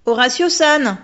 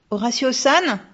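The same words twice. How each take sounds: First: Louder, insistent calling of the name. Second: Put-on girl calling loudly into the dark. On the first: Girl insists, calling the ghost again, loud and high. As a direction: call the name again, pressing harder. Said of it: "insista la petite fille". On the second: Girl calls out to the ghost in the dark, loud and high. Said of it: "s'écria-t-elle". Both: A narrator's reading.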